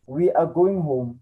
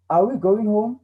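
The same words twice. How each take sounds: First: Said in the usual way. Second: "Are we going home?" higher, rising on "we"; question rising tune. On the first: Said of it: "Here's an example for us". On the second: Shown as a demonstration. Teacher showing the rearranged question to students, rising. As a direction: lift it into a clear question. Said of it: "So it will become".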